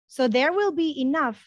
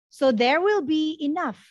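Both takes have the same delivery.

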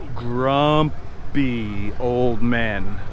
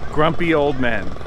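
First: The phrase is said very slowly. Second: The phrase is said at a normal pace.

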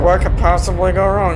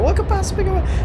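First: It is said in a mocking, ironic tone. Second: It is said in a sincere, serious tone. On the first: The speaker knows something could go horribly wrong. The speaker calls it right. "But if you're like, ... This is a terrible idea" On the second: The speaker genuinely expects nothing bad to happen. The speaker calls it wrong. "You never go"

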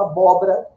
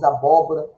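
First: An inner syllable is dropped from the word. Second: All syllables of the word are pronounced. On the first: "Pessoas falam, por exemplo" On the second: "Em vez de"

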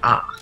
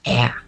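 First: The vowel is said in a standard accent. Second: The vowel is said in a Michigan accent. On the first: "We don't say ah" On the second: "It's ah"

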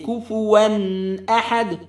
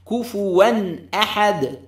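First: The nasal n is stretched out long. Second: The nasal n is short and clear. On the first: The speaker calls it wrong. "Don't extend any غنة with the تنوين. Don't say كفوان أحد. That's wrong" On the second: The speaker calls it right. "clarity, maintain it"

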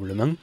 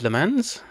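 First: The name is said with a French accent. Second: The name is said with an English accent.

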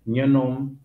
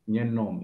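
First: The final syllable is drawn out longer. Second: The final syllable is short. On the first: This is the Santo Antão way of saying it. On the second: This is the São Vicente way of saying it.

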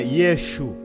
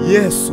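First: The middle consonant is an sh sound. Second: The middle consonant is a plain s sound. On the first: The speaker calls it wrong. "mtu anasema Yeshu" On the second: The speaker calls it right. "nakuta neno Yesu"

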